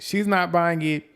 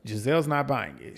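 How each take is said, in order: First: "not" higher and held, slower; stress on not. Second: Said in the usual way. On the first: Shown as a demonstration. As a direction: lean hard on "not".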